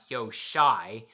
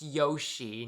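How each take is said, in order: First: The name ends with an 'eye' sound. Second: The name ends with an 'ee' sound. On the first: The speaker calls it wrong. "not Yoshai" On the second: The speaker calls it right. "apparently his name is pronounced Yoshi"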